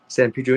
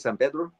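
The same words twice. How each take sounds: First: The name is said with English-style vowels. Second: The name is said with Spanish-style vowels. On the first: This is how the locals say it. "where they say San Pedro" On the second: This is how a Spanish speaker says it. "the way I would pronounce it, San Pedro. You know, since I have a Spanish tongue"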